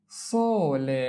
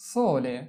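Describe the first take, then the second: First: Slow, lengthened "sole" for learners; drawn-out model. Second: Said in the usual way. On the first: Shown as a demonstration. Teacher models sole for learners, drawn out. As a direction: stretch "sole" out, holding the o.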